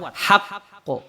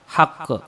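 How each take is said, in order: First: The word is said strongly, with a firm bounce. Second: The word is said weakly, without a strong bounce. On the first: The speaker calls it right. "harus kuat" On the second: The speaker calls it wrong. "Enggak boleh dibaca"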